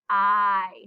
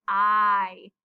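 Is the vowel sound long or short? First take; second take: long; long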